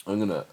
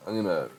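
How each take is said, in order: Both takes have the same delivery.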